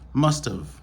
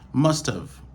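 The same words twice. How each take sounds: First: The have is shortened into a contraction. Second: The same.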